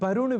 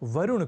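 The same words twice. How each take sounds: First: The word begins with a b sound. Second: The word begins with a v sound. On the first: The speaker calls it wrong. "भी लोग बोल जाया करते हैं" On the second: The speaker calls it right. "ऐसे ही वरुण को"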